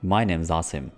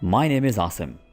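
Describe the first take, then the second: First: The word 'is' is contracted onto 'name'. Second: The word 'is' is said fully and separately. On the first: "थोड़ा सा fluently भी बोल सकते हैं ... इज़ अलहदा से मत बोलिए" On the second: "my name इज़, ... बोल लीजिए अपना नाम"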